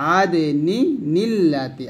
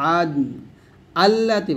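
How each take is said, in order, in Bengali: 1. শব্দ দুটি একসাথে মিশে যায়, আর মাঝে একটি ন ধ্বনি যোগ হয়। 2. প্রথম শব্দের পরে স্বর থেমে যায়, কোনো ন থাকে না। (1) "আর মিলা পড়লে" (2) "আর ওয়াকফ দিলে"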